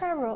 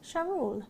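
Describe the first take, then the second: First: The name starts with a 'ch' sound. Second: The name starts with a soft 'sh' sound. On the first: The speaker calls it right. "if you think of saying chair, it's Cheryl" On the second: The speaker calls it wrong. "Hopefully I'm pronouncing that right"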